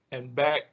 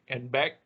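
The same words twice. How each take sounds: The two takes are said the same way.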